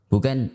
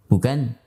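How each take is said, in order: Both takes have the same delivery.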